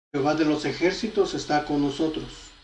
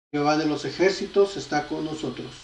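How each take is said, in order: Both takes have the same delivery.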